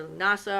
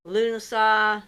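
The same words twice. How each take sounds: First: "Lunasa" as loo-NAH-suh; alternative pronunciation. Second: "Lunasa" as LOO-nuh-sah; first pronunciation attempt. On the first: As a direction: say "Lunasa" with an open, stressed middle and weak ending. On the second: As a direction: say "Lunasa" with a short, weak middle and open "sah" ending. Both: Shown as a demonstration. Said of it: "or however they say it".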